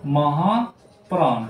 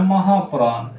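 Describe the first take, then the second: First: महाप्राण drawn out slowly, syllable by syllable; slow spelled-out. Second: Said in the usual way. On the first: Shown as a demonstration. Teacher repeats महाप्राण slowly for the children. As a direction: stretch महाप्राण out slowly so pupils hear each part. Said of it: "दूसरा होता है महाप्राण".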